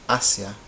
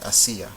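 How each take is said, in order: First: First "Asia" as AH-sya, in two syllables; stress on first syllable. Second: Second "Asia" as a-SEE-a, in three syllables; stress on the í. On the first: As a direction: stress the opening A of "Asia", keep ia a glide. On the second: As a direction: stress SI in "Asia", with a separate final a. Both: Shown as a demonstration. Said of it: "These are two different words".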